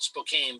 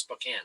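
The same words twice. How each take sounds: First: Spokane read as spo-KAYN, with a long A; spelling pronunciation. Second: Spokane said as spo-KAN, with a short A; correct local pronunciation. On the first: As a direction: sound out Spokane as written, ending like cane. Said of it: "It's spelled Spokane". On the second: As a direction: end Spokane like the word can. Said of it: "but it's pronounced Spokane". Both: Shown as a demonstration.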